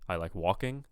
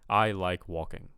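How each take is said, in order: First: The pitch rises on the final word. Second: The pitch falls toward the final word. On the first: "uptalk ... where they kind of go up on the end" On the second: "the pitch kind of goes like goes down as you speak"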